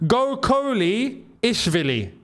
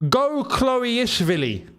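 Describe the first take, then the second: First: The second part sounds like two syllables, 'Coley'. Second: The second part sounds like one syllable, 'Chloe'. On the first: "Go Coley" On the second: "It's not Chloe"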